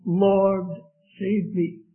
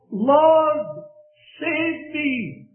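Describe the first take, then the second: First: Said in the usual way. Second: Desperate cry. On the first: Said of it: "What a cry". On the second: Acted. Peter sinking cries to the Lord, high desperate call. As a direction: cry out to be rescued. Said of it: "he cries out".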